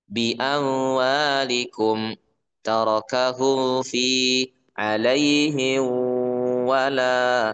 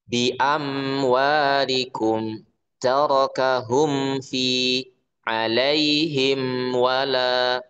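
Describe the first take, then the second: First: The m sounds before w and f are faint. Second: The m sounds before w and f are clear. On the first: The speaker calls it wrong. "Contoh dibaca samar tuh kayak gini" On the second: The speaker calls it right. "harus jelas harus jelas"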